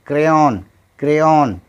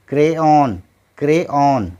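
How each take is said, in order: Both takes have the same delivery.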